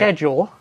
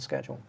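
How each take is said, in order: First: It is said with a British pronunciation. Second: It is said with an American pronunciation.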